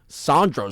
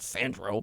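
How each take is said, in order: First: The name is said with a spicier pronunciation. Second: The name is said with a plainer pronunciation. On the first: The speaker calls it right. "more spicy" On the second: The speaker calls it wrong. "I've been saying his name wrong"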